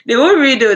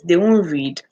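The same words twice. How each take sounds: First: Won't punched loud and high; emphatic stress on won't. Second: Said in the usual way. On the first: Shown as a demonstration. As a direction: hammer the word won't, higher and louder.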